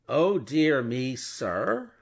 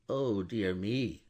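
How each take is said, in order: First: Louder, higher, offended echo of his words; the lawyer mocking the banker's dismay; indignant echo. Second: Slow, drawn-out mild dismay. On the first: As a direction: throw the words back, affronted. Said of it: "repeated Stryver". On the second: Acted. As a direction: let the dismay sag out slowly. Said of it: "cried Mister Lorry".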